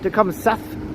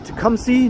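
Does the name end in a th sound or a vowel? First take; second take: th sound; vowel. First: The name ends with a th sound. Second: The name ends in a vowel, without th. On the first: This follows the spelling. The speaker calls it wrong. "not Tecumseth. Just because it's spelled like that, that's not how you say it" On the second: This is how locals say it. The speaker calls it right. "Just crossing Tecumseh"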